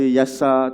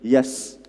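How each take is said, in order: First: The word ends with a short 'a' vowel. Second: The word ends with a bare 's' consonant. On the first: The letters are read as plain sounds. "tak boleh baca Yasa" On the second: The letters are run together as one word. "tak boleh baca Yas"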